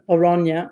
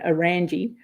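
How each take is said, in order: First: The name is said the Dutch way. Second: The name is said the Australian way.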